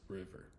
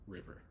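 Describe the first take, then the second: First: The first vowel is short, like 'riv'. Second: The first vowel is short, like 'riv'.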